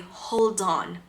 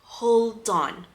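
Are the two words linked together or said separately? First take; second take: linked; linked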